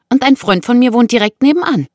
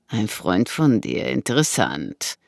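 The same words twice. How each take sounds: First: High, loud and indignant; warning woman. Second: Slow, low mocking echo; taunting man. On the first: Acted. Woman tells intruder of a friend next door, warning. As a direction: warn him off in a raised voice. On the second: Intruder echoes her claim about a friend, taunting. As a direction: toy with the claim, slowly.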